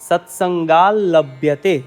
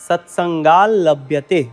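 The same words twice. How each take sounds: No difference in how they are said.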